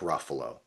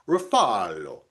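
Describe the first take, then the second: First: The name is said with an American pronunciation. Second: The name is said with an Italian pronunciation. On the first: "I know it's Mark Ruffalo" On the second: "the original pronunciation, it's like Ruffalo"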